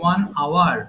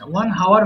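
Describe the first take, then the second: First: Hour starts with no h sound. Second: Hour starts with a clear h sound. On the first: The speaker calls it right. "উচ্চারণ হবে কি one আওয়ার" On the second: The speaker calls it wrong. "ওয়ান হাওয়ার হবে না"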